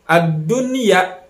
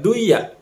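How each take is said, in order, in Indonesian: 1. Bunyi n jelas diucapkan sebelum y. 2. Bunyi n dihilangkan sebelum y. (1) "dibacanya secara terang" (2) "Dibacanya enggak duya"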